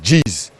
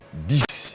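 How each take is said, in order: First: Pronounced with a Luba accent. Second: Pronounced the standard French way. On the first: "les Luba, ... ils disent dix" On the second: "pour dire dix"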